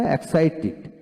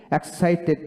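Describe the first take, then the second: First: "এক্সাইটেড" ending in "tid"; "এক্সাইটেড" as ek-sai-TID; corrected -tid ending. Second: "এক্সাইটেড" ending in an open "ted"; "এক্সাইটেড" as ek-sai-TED, shown as the mistake; wrong -ted ending. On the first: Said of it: "টি ই ডিতে টি উচ্চারিত হবে". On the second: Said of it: "এক্সাইটেড না". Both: Shown as a demonstration.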